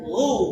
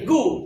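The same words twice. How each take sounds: First: It starts with a throaty, raspy sound. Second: It starts with a hard g sound. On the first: The speaker calls it right. "faja'alahu gu" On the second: The speaker calls it wrong. "bukan gu"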